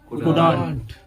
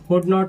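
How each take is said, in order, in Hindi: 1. इसमें एक संक्षिप्त शब्द है, और not का स्वर छूट गया है। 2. इसमें दो पूरे शब्द हैं, और not साफ़ सुनाई देता है। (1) "कुड नॉट is equal to कुडंट" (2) "कुड नॉट is equal to कुडंट"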